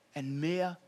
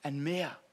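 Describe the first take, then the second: No difference in how they are said.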